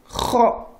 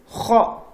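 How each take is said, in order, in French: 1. La voyelle est arrondie, comme o. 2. La voyelle est arrondie, comme o.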